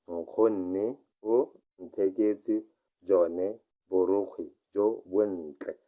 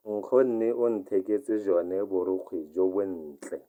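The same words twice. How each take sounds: First: Very slow dictation pace; very slow repeat. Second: Said in the usual way. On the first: Shown as a demonstration. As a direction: stretch out Nkgonne o ntheketse jone for learners. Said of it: "teacher repeats it very slowly". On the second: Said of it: "teacher reads the model sentence".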